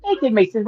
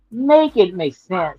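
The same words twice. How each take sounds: First: Said in the usual way. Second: "Make it make sense" stretched slowly, word by word; slow right down on "Make it make sense" to press the point; drawn-out emphasis. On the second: Real, not acted.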